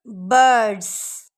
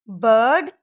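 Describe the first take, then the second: First: बर्ड्स stretched slowly, buzzing z end. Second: Said in the usual way. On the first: Shown as a demonstration. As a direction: drag out बर्ड्स, buzz the z. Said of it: "एंड पे ज का sound". (बर्ड्स धीरे, अंत में ज़) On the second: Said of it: "sound को देखें".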